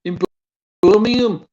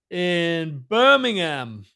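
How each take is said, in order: First: High-pitched Brummie lilt; Brummie accent. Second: "Birmingham" drawn out slowly with a full HAM ending; careful American pronunciation. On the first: Shown as a demonstration. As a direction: say it like a Birmingham local, pitched up. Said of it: "in a Bromy accent". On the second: Real, not acted. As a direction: say "Birmingham" slowly, every syllable sounded. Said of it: "Did I say that?".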